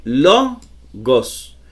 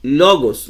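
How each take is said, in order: First: "logos" split into two slow syllables, stress on "lo"; penultimate stress. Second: Said in the usual way. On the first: Shown as a demonstration. Teacher showing where the accent falls, "logos" slowly split with stressed LO. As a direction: stretch the first syllable of "logos", then a separate "gos". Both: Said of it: "llevan el acento en la penúltima sílaba".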